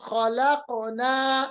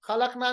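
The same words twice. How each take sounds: First: Slow खलकना with q bounced as "khalaqo-naa"; qalqalah. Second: Said in the usual way. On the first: Shown as a demonstration. Teacher gives another example, खलकना with bounced q. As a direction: echo the q in खलकना before a long naa. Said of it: "इसी तरह". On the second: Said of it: "खलकना नहीं पढ़ेंगे".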